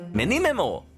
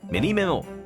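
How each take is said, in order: First: It is said plainly, without Japanese-style intonation. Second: It is said with a Japanese-style intonation.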